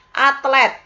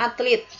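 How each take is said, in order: First: Atlet said with a clear e, at-LET; standard spelling. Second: Atlet said as atlit, with an i in the last syllable; nonstandard form. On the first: Teacher models the standard word for students, clear e. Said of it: "sedangkan tidak bakunya". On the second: Teacher shows the nonstandard form, atlit with an i. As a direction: say atlet wrongly as atlit, i instead of e. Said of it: "tidak bakunya". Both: Shown as a demonstration.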